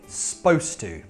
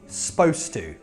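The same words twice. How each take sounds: First: The first vowel of supposed is dropped entirely. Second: The same.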